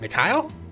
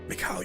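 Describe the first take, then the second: First: The name is asked as a puzzled question. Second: The name is cried out in grief.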